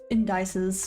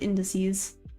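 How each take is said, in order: First: It does not sound like 'in the sea'. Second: It sounds like 'in the sea'. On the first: The speaker calls it wrong. "I used to call it indices" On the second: The speaker calls it right. "I think about going in the sea"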